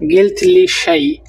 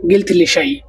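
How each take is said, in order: First: গিলথলিশাই stretched slowly, starting high; slow careful model of গিলথলিশাই; slow demo. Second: Said in the usual way. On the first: Shown as a demonstration. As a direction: pull গিলথলিশাই apart syllable by syllable. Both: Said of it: "তাহলে বলবেন".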